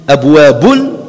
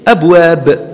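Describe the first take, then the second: First: The word ends with a vowel plus n. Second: The word ends on a bare b consonant. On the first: The word is read on into the next. "si tu dis abwabun" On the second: The reader stops on this word. "Tu termines avec soukoun"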